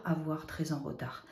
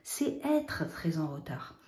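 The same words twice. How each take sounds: First: Avoir said softly, falling, to sound odd; wrong version. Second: Être stressed, said slowly and firmly; correct version. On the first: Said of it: "ça fait bizarre". (la version fautive, avoir un peu douteux) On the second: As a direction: put firm weight on être. (la bonne version, être appuyé lentement) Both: Shown as a demonstration.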